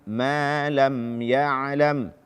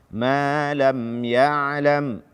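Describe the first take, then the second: No difference in how they are said.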